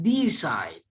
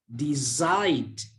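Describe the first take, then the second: First: The stress is on the first syllable. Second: The stress is on the second syllable. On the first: The speaker calls it wrong. "bukan decide" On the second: The speaker calls it right. "tapi ... decide"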